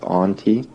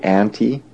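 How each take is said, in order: First: It uses a different, non-local vowel. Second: It uses the speaker's local Canadian vowel. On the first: "not auntie" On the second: "we say auntie"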